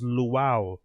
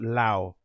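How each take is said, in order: First: The syllable is said with two separate vowel sounds. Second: The syllable is said as one single vowel sound. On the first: The speaker calls it right. "it was Luau" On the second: The speaker calls it wrong. "and not Lao"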